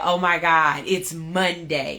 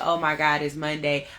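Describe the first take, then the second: First: It sounds excited and happy. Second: It sounds dreading and unhappy.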